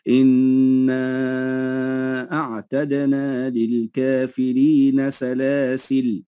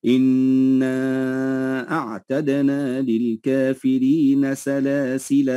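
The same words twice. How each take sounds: First: Very slow recitation, سلاسل cut off with no final alif; recited pause without alif. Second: Very slow recitation, سلاسل ending on a long alif; recited pause with alif. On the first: Teacher recites the pause dropping the alif. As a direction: chant slowly and stop sharply on سلاسل. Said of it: "ويجوز أن نقف بالحذف فنقول". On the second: Teacher recites the pause keeping the alif. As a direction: chant إنا أعتدنا للكافرين slowly, holding سلاسل. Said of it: "فيجوز أن نقف ونقول". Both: Shown as a demonstration.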